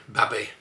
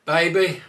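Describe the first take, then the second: First: Babby with a short a. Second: Said in the usual way. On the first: Shown as a demonstration. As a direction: say Baby as babby.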